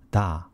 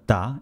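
First: The consonant is plain and soft. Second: The consonant is tense and hard. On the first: "instead of" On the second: "it generally sounds as 다"

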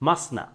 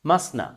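Both takes have the same delivery.

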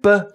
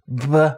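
First: The consonant is released cleanly without friction. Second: The consonant is released with audible friction.

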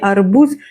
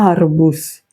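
First: The stress is on the last syllable. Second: The stress is on the first syllable. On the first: The speaker calls it wrong. "не арбуз" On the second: The speaker calls it right. "на передостанній склад наголос"

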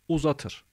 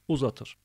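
No difference in how they are said.

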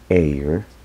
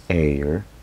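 No difference in how they are said.

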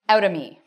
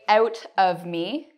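First: The words are said quickly and linked together. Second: The words are said slowly and separately. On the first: The speaker calls it right. "We usually link our words, and instead, in conversation, we will say out of me" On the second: The speaker calls it wrong. "we don't say it like this. It's too formal, too slow"

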